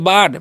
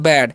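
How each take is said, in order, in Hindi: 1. स्वर लंबी खुली 'ah' ध्वनि है। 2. स्वर 'cat' जैसी सपाट 'a' ध्वनि है। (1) "बाड नहीं पढ़ना है जी" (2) "इसे हम पढ़ते हैं बैड"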